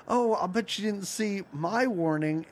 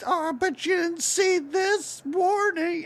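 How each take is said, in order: First: Lightly voiced smug Pac-Man, near own voice; a hint of Pac-Man turning the tables. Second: Much higher, slow, taunting cartoon ghost. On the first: Retelling Pac-Man's comeback to the ghosts, mild mock smugness. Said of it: "And then he's like". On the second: Retelling the ghosts teasing Pac-Man, high slow mock voice. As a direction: draw it out up high like a smug ghost. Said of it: "the ghosts are like".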